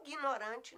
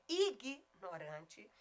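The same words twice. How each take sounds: First: IGNORANTE with a nasal start, "inguinorante"; mistaken nasal pronunciation. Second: IGNORANTE slowly, pure I, "i-gui-no-RAN-te"; correct oral vowel. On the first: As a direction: say IGNORANTE as if it began with IN. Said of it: "ignorante não". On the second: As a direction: break IGNORANTE after a clean, non-nasal IG. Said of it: "É ignorante". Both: Shown as a demonstration.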